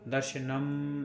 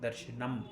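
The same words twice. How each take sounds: First: The final m is stretched out long. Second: The final m is touched and released quickly. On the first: The speaker calls it wrong. "ऐसे खींचना नहीं" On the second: The speaker calls it right. "माँ को पकड़कर छोड़ देना"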